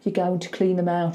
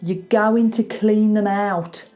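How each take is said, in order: First: The vowel in 'out' is halfway, not fully Birmingham. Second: The vowel in 'out' is fully broad Birmingham. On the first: The speaker calls it wrong. "she kind of goes something in the middle" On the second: The speaker calls it right. "So you're going to clean them out is what I want"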